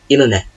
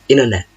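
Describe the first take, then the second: No difference in how they are said.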